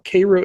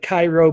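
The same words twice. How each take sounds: First: The name gets the local regional pronunciation. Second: The name gets its familiar, everyday pronunciation. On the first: "there in that region they pronounce it Cairo" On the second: "It's spelled like Cairo"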